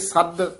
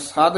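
First: The doubled consonant is pronounced tight and held. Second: The consonant is pronounced loosely, not held. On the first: The speaker calls it right. "ਇੱਥੇ ਸੱਦ ਕੱਸ ਕੇ ਉਚਾਰਨ ਕਰਨਾ" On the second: The speaker calls it wrong. "ਸੱਦ ਨਹੀਂ ਕਹਿਣਾ ਹੈ"

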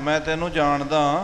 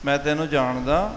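First: It is said in a stern, glaring, threatening tone. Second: It is said with a questioning tone. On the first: The speaker warns the person that they are known. "ਕਿਸੇ ਨੂੰ ਘੂਰ ਕੇ ਕਹਿਣਾ" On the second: The speaker asks whether they know the person. "ਪ੍ਰਸ਼ਨਵਾਚੀ"

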